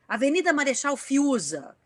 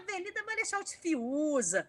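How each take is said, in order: First: It is read in a plain, neutral way. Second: It is read in a playful, funny way.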